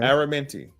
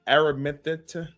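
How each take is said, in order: First: The name ends with an 'ee' vowel sound. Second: The name ends with an 'uh' vowel sound. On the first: "They call it Minty. There you go" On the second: "Am I saying that right?"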